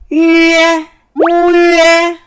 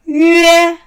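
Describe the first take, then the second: First: It starts with an extra rounded o sound. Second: It starts directly without an extra o sound. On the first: The speaker calls it wrong. "오위에 이렇게 하는 학생들도 있어. 세 가지 음이 나온 거예요" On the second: The speaker calls it right. "오위에 아니에요. 위에"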